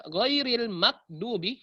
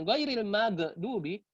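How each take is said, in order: First: Ghairil maghdubi run together with no gap; slow ghairil maghdubi without a break; no pause. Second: Ghairil maghdubi with a long gap after gh; slow ghairil maghdubi, overlong break; pause too long. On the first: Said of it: "hilang jedahnya". (jeda hilang pada maghdubi) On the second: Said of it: "terlalu tinggi jedahnya". (jeda terlalu panjang pada maghdubi) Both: Shown as a demonstration.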